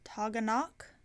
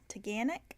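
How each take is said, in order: First: The name is said the way outsiders read it. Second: The name is said the way locals say it. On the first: This is how people from elsewhere would say it. "That's not how you would pronounce it down here. It would be like Toganok" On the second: This is how people living there say it. "how the locals were saying it was Taganic"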